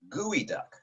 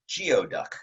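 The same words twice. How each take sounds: First: The word is said unlike its spelling. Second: The word is said the way it is spelled. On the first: The speaker calls it right. "The way you pronounce that creature's name is geoduck" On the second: The speaker calls it wrong. "read this as geoduck, and you would be incorrect"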